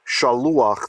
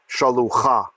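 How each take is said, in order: First: The ah vowel comes before the final consonant. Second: The ah vowel comes after the final consonant. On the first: The speaker calls it right. "We say shaluach" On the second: The speaker calls it wrong. "not shalucha"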